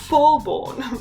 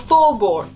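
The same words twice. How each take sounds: First: It is said in a grand, elegant, dramatic voice. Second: It is said plainly, in her normal voice.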